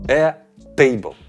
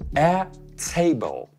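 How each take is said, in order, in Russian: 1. t непридыхательный, без выдоха. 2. Звук t выталкивается с порцией воздуха. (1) "вместо обычного «т» в русском" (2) "«Т», который мы будто бы выталкиваем из себя с воздухом"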